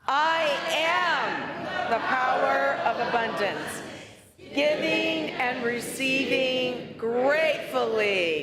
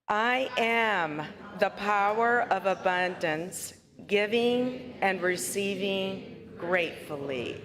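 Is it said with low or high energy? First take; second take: high; low. First: It is said with more energy. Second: It is said with ordinary, lower energy.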